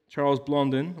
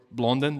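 First: Blondin said with a nasal French "on", like "Blon-dan"; French-style Blondin. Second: Blondin said the local English way, "BLON-din". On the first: Preacher naming the French tightrope walker, French-style pronunciation. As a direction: give Blondin its French sound, "Blɔ̃-din". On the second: Preacher giving the congregation's own pronunciation, plain local English. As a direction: say Blondin the way they say it here. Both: Shown as a demonstration. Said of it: "that's how we say it here".

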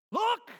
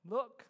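First: Sudden loud, high yell; yelled warning. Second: Said in the usual way. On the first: Acted. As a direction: shout it to stop someone short. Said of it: "what you yell at your kids".

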